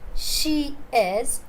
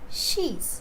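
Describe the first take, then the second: First: Two separate words are said in full. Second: The two words merge into one syllable.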